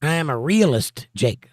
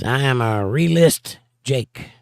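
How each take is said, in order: First: "realist" in full syllables, REE-uh-list; corrected reading. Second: "realist" misread in two syllables, as REE-list; slow reading, "realist" slipping into "re-list"; misread word. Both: Real, not acted.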